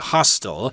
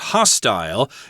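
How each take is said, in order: First: It is said with an American pronunciation. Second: It is said with a British pronunciation. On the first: "Americans will probably say hostile" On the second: "You'll hear it that way in England"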